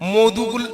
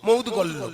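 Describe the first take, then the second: First: It is said like 'modhugul', with a 'dh' sound. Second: It is said like 'moudgolyo', with a 'dg' cluster. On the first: The speaker calls it wrong. "এই যে মধুগুল্য নয়" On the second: The speaker calls it right. "কিন্তু উচ্চারণ মৌদগল্য"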